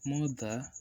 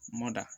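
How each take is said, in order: First: The middle consonant is a th sound. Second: The middle consonant is a heavy d sound.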